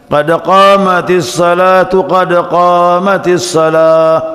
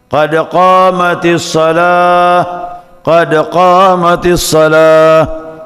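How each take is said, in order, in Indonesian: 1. Frasa pertama berakhir dengan -tu, lalu bersambung ke kata berikutnya. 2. Frasa pertama berhenti pada vokal akhir tanpa konsonan.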